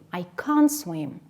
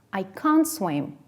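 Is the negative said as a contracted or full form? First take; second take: contracted; contracted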